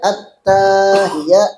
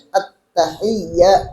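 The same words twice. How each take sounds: First: The vowel after the first t is drawn out. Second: The vowel after the first t is short. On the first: The speaker calls it wrong. "nah berarti salah. Ada tambahan mat di dalam taknya" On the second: The speaker calls it right. "tulisannya at-tahiyyat, ianya tasydid tuh"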